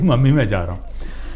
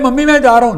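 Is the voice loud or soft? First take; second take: soft; loud. First: It is said softly and calmly. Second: It is said loudly and excitedly. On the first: The speaker calls it right. "थोड़ा करीब चले जाइए और कहिए" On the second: The speaker calls it wrong. "Excitement show करूं"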